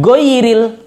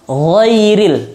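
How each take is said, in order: First: The first sound is a plain hard g. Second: The first sound is a throaty gh. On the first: The speaker calls it wrong. "bukan goiril" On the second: The speaker calls it right. "Jadi ditenggorokan gha"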